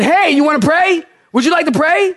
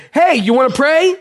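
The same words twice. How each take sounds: First: Higher, raised voice calling out; calling across room. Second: Raised voice calling across the room. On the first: Pastor calls out to the nurse again, higher and raised. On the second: Pastor calls across the room to the nurse, raised voice. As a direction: call it out to her across the room. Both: Retold or imitated. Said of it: "Like, way across the room".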